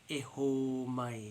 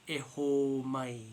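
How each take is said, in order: No difference in how they are said.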